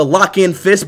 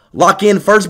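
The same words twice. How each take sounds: First: Fist said without the r; slurred fist. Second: First said clearly with its r; corrected first. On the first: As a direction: blur first into fist. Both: Shown as a demonstration.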